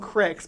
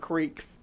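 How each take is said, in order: First: The vowel is short, as in 'brick'. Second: The vowel is long, as in 'seek'. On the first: This is how the southern folk say it. "They call them cricks" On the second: This is how the northern folk say it. "but we call it creeks"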